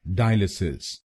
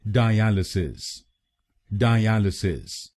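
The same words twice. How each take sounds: First: dialysis with the weight on the first syllable DIE; wrong stress on DIE. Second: dialysis with the second syllable AL pressed; stress on AL. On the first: Teacher shows the wrong stress on DIE. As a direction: punch DIE in dialysis, as the mistake. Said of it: "पहले शब्दांश पर यानी DI पर जोर डालते हैं". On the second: Teacher shows the stress falls on AL. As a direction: lean on AL in dialysis, slowly. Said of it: "दूसरे शब्दांश पर यानी एएल पर जोर डालना है". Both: Shown as a demonstration.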